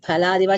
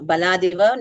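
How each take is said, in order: First: The first consonant is aspirated. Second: The first consonant is unaspirated. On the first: The speaker calls it wrong. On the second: The speaker calls it right.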